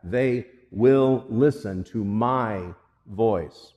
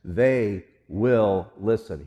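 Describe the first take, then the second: First: Slow, with "will" leaned on and falling; stress on WILL. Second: Slow, with "They" leaned on and falling; stress on THEY. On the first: Pastor stressing to the congregation that they will listen, slow. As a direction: press on "will" and let "listen to my voice" settle. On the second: Pastor stressing to the congregation who will listen, slow. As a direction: give "They" the weight, then let "will listen" fall. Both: Shown as a demonstration. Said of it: "Hear that".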